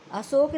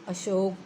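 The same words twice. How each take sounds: First: अशोक with a plain s. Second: अशोक with a hushing sh; correct sh. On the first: Teacher citing the error, अशोक with s. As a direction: say अशोक as "asok". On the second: Teacher correcting the error, अशोक with sh. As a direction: say अशोक as "ashok". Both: Shown as a demonstration. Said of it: "नहीं".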